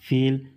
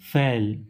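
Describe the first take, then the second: First: The vowel is closed, like in 'fate'. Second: The vowel is open, like in 'fan'. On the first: The speaker calls it right. "लेकिन real में होता क्या है?" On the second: The speaker calls it wrong. "और हम लोग इसे क्या पढ़ते हैं?"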